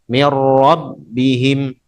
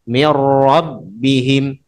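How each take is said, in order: Both takes have the same delivery.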